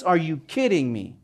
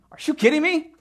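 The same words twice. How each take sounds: First: Said in the usual way. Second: A wronged wife scoffing in disbelief; imagined Bathsheba. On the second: Retold or imitated. Bathsheba scoffing at David, high incredulous outburst. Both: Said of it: "Can only imagine her thoughts".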